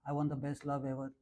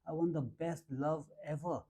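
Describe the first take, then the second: First: It is said flatly, without emotion. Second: It is said with strong, heartfelt emotion. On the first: The wish has no feeling behind it. The speaker calls it wrong. "No, it's never going to work" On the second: The wish is truly felt. The speaker calls it right. "Are you feeling it? It should be in your eyes"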